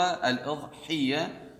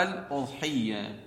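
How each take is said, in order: First: الإضحية slowly, opening on "i", "al-idhiyya"; slow teaching "al-idhiyya" for الإضحية; kasra on hamza. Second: الأضحية slowly, opening on "u", "al-udhiyya"; slow teaching "al-udhiyya" for الأضحية; damma on hamza. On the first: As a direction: spell out the "i" at the start of الإضحية. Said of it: "الهمزة مكسورة". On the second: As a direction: spell out the "u" at the start of الأضحية. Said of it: "أو مضمومة". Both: Shown as a demonstration.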